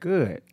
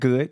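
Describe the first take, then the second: First: The vowel is drawn out somewhat. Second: The vowel is short and plain. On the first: Things are better than fine. "That's about three O's" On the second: Things are fine. "A regular good"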